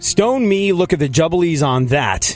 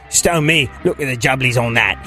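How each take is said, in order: First: It is spoken in an American accent. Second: It is spoken in an English accent. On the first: The speaker calls it wrong. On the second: The speaker calls it right.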